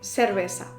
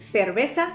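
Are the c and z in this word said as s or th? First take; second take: s; th. First: The c and z are said as s. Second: The c and z are said as th. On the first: "la opción seseante" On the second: "la opción ceceante"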